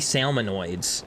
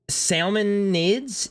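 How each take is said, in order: First: The word ends with an 'oids' sound. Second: The word ends with an 'ids' sound. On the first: "I wanna say it like it's android. ... But it's not salmonoids" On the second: "Is it ni is it nids?"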